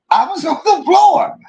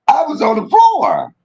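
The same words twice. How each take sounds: First: Even higher, squealing with laughter; laughing higher. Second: High, still laughing. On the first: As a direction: push it up into a squeal. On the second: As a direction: squeal it through the giggles. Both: Real, not acted. Repeats while laughing.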